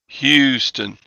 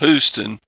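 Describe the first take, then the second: First: The first syllable is said with the 'y' glide. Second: The first syllable is said without the 'y' glide. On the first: The speaker calls it right. "Hugh. Got to get the U in there" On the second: The speaker calls it wrong. "not Houston"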